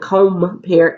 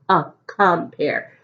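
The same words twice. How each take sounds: First: Compare with a long O, "COME" turned to "COHM"; deliberate mispronunciation. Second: Isolated "uh", then compare as "cum-pair"; short O sound. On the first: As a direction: say compare wrongly as "cohm-pair". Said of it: "Is O making its own sound?". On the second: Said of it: "So the O is short". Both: Shown as a demonstration.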